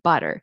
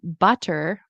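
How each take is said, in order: First: The middle t is a quick flap. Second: The middle t is a clear, full t. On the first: The speaker calls it right. "you want to say water, butter" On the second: The speaker calls it wrong. "instead of saying like um, butter or water"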